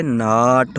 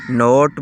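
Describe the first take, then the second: First: ناٹ with a long open AA; corrected AA vowel. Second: نوٹ with a rounded O, like "note"; common mispronunciation. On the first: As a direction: open and stretch ناٹ as "naat". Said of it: "لیکن یہ ناٹ ہوتا ہے". (ناٹ، الف مد آ کی آواز کے ساتھ) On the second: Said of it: "ہم اس کو کافی مرتبہ". (نوٹ، او کی آواز کے ساتھ) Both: Shown as a demonstration.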